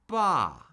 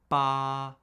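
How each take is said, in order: First: The pitch drops sharply from high to low. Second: The pitch stays high and level throughout. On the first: "the fourth tone falls" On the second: "The first tone is high, flat, and unchanging"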